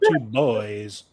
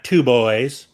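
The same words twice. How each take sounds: First: The stress is on boys. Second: The stress is on two.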